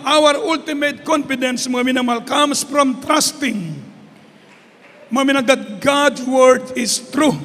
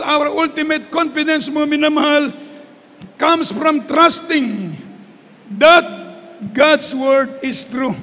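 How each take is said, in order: First: Said in the usual way. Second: Pause, then hit "that"; emphatic repeat. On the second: Shown as a demonstration. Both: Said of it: "repeats the line for emphasis".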